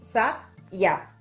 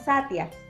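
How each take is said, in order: First: The ya is a strong, separate consonant sound. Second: The y is soft, like a short i gliding. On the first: The speaker calls it wrong. "no decimos sat ya" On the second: The speaker calls it right. "el sonido es mucho más suave"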